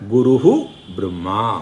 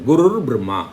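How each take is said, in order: First: The first word ends separately with an h sound. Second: The first word ends joined with an r sound. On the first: The two words are split apart. "அதை பிரித்து சொல்லணும்னா" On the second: The two words are joined by sandhi. "குருக்கு அப்புறம் இரு வருது"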